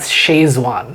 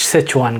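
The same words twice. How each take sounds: First: "Szechuan" said as SHAYZ-wahn; Indian pronunciation. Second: "Sichuan" said as SITCH-wahn; corrected pronunciation. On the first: Explaining to guest how India says it, "Szechuan" as SHAYZ-wahn. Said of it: "we pronounce it as". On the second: Telling listeners the real name, "Sichuan" as SITCH-wahn. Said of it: "it's actually pronounced". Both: Shown as a demonstration.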